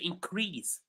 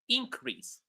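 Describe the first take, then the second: First: The stress is on the second syllable. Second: The stress is on the first syllable. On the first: It is used as a verb. "When they are verbs, we stress the second syllable" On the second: It is used as a noun. "when these words are nouns, we stress the first syllable"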